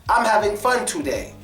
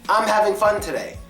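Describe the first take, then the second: Both takes have the same delivery.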